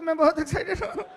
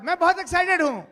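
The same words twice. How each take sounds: First: It is said in a weepy, crying voice. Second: It is said in an excited voice.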